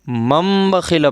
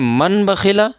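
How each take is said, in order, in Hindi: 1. पहला शब्द नासिका-युक्त m की ध्वनि से खत्म होता है। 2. पहला शब्द सादे n की ध्वनि से खत्म होता है। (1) "बल्कि मम बखिला पढ़ेंगे" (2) "मन बखिला नहीं पढ़ेंगे"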